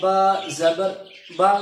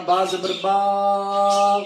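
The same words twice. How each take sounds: First: The final syllable is said gently and smoothly. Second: The final syllable is stretched out long. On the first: The speaker calls it right. "नरमी से उसको पढ़ना है, बिल्कुल नरमी से" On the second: The speaker calls it wrong. "ऐसे नहीं पढ़ना ... लंबा नहीं करना"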